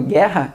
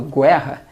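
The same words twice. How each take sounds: First: No u sound is heard after the g. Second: A u sound is heard after the g. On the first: The speaker calls it right. "ali eu não pronuncio U, eu falo guerra" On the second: The speaker calls it wrong. "eu não falo guerra"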